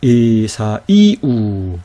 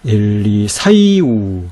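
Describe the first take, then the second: First: Very slow 에사이우, 사 apart from stressed 이; stretched 에사이우 with a fresh beat on 이; stressed, vowels separated. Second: Very slow 엘리사이우, 사이 glided together under stress; drawn-out 엘리사이우 with 사이 as one stressed unit; reading with stress. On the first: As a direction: draw out 에사이우, lifting 이 on its own. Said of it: "다르죠, 그쵸?". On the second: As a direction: stretch 엘리사이우, raising 사이 in one sweep. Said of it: "강세를 넣어서 한번 읽어보도록 할게요". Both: Shown as a demonstration.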